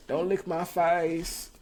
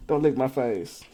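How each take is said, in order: First: High, slow whiny protest; mock whine. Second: Said in the usual way. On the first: Real, not acted. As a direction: drag it out like a whine at the dog. Dog licking his face.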